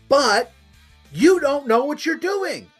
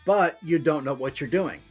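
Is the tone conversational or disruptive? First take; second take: disruptive; conversational. First: It is said in a forceful disruptive tone. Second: It is said in a plain conversational tone.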